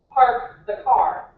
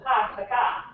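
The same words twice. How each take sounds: First: Boston accent, slow. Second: Said in the usual way. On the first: Shown as a demonstration. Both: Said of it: "they don't pronounce their R's".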